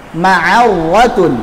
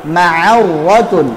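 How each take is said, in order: Both takes have the same delivery.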